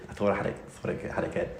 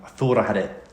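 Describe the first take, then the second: First: Fast, breathy under-the-breath repeat; quick muttered aside. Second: Said in the usual way. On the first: Retold or imitated. Mocking his old exam confidence, muttered quickly. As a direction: rattle it off to yourself under your breath.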